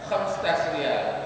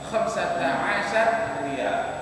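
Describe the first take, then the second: First: The number is squeezed into two quick syllables. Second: The number is spoken slowly with every syllable. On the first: This is how native speakers say it in everyday speech. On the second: This is the form found in textbooks.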